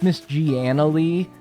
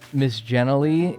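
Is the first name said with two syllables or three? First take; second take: three; two. First: The first name is said with three syllables. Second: The first name is said with two syllables. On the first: "it's Miss Gianna Lee" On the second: "not Miss Jenna Lee"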